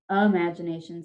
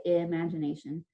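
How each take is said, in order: First: IMAGINATION starting with "uh", as uh-maj-in-ation; silly variant vowel. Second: IMAGINATION starting with a clear "ih"; short-i first vowel. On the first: Teacher showing a silly-sounding variant, "uh" opening IMAGINATION. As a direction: open IMAGINATION on "uh" instead of "ih". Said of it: "Imagination sounds kind of silly". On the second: Teacher modelling the preferred pronunciation, clear "ih" opening IMAGINATION. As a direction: lean on "ih" to open IMAGINATION. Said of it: "you should say imagination". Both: Shown as a demonstration.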